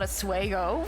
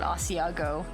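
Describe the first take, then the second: First: The word starts with 'swah'. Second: The word starts with 'ah-see'. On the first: The speaker calls it wrong. "he would call it a Swago for some reason" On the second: The speaker calls it right. "finally heard it called Asiago"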